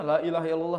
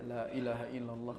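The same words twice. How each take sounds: First: The phrase is said very loudly. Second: The phrase is said at ordinary volume. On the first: The speaker calls it wrong. "sampai kenceng-kenceng" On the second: The speaker calls it right. "Biasa aja"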